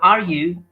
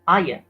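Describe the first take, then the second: First: Both words are said fully and separately. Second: The words blend into one reduced syllable pair.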